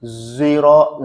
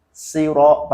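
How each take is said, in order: First: "Ziro" opening on a buzzed Z; zay opening. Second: "Siro" opening on a thin S; plain sin. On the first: Teacher isolates the variant for students, zay opening. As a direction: start "Ziro" with a voiced Z. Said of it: "boleh dibaca zayyan". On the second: Teacher isolates the variant for students, plain sin. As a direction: start "Siro" with a light hissed S. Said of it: "pakai sin". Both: Shown as a demonstration.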